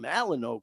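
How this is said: It is said in the East Coast way. "on the East Coast, ... that's what they call them"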